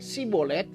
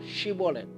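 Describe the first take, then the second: First: The word begins with a plain 's' sound. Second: The word begins with an 'sh' sound. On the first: The speaker is from Ephraim. "gak bisa menyebut Y, maka mereka bilang Sibolet" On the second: The speaker is not from Ephraim. "Shibolet pakai Y"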